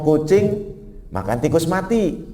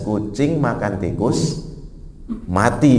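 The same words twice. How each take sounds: First: It is said without a pause before mati. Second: There is a pause before the word mati.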